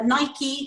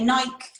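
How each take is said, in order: First: It is said the American way. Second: It is said the British way. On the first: This is how the other country says it. "they say uh, Nike" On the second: This is how the speaker's own country says it. "we say Nike"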